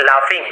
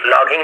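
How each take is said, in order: First: लाफिंग with an f sound, "laa-fing". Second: लॉगिंग with a hard g, "law-ging"; wrong hard G. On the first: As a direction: say लाफिंग with GH turned into f. (लाफिंग में "फ" की आवाज़) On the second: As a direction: misread laughing as लॉगिंग, sounding GH as g. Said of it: "लॉगिंग नहीं बोलेंगे". (लॉगिंग, "फ" की जगह "ग" बोलकर) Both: Shown as a demonstration.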